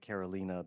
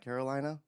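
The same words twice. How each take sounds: First: The name is pronounced the Polish way. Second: The name is pronounced the English way. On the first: This is the name's original form. "whose name is actually Carolina because she's Polish" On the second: This is the form she used day to day. "but went by Carolina"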